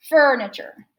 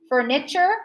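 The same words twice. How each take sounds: First: FURNITURE punched on FUR, then falling; stress on first syllable. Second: FURNITURE with weight moved to NI, rising; misplaced stress on the NI of FURNITURE; stress on middle syllable. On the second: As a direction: say FURNITURE as fur-NI-chur, questioning. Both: Shown as a demonstration. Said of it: "The first one".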